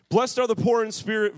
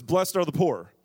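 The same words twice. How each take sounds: First: "Blessed are the poor in spirit" lifted, weight on "poor" and "in spirit"; stress on in spirit. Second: Said in the usual way. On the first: Shown as a demonstration. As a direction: give "in spirit" a raised, emphatic push. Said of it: "In spirit changes things dramatically".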